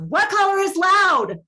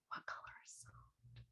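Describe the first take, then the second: First: It is yelled loudly. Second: It is whispered quietly.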